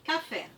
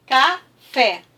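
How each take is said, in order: First: Said in the usual way. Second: "café" punched out loud as ca-fé; two firm separate beats on "café"; syllable by syllable. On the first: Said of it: "a palavra café". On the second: Shown as a demonstration. Teacher clapping out the word for pupils, syllable by syllable. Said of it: "Eu vou bater".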